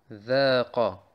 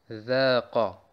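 The two takes are said the same way.

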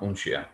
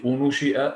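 First: The n runs straight into sh without a vowel. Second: A vowel is heard between the n and sh. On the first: The speaker calls it right. "sondern Unshi'a" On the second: The speaker calls it wrong. "Nicht Unushi'a"

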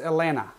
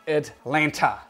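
First: The second T sound is left silent. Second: The second T sound is clearly pronounced. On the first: The speaker calls it right. "The second T is silent" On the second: The speaker calls it wrong. "it is not Atlanta"

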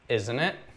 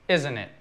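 First: The voice rises at the end. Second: The voice falls at the end. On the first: The speaker is really asking. "Or if it's a legitimate question" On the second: The speaker is seeking confirmation, not asking. "When you add a question tag at the end of a sentence and the intonation goes down"

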